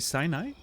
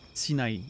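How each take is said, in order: First: It is pronounced the English way. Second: It is pronounced the French way. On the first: "in English, you say Sinai" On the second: "Sinai in French"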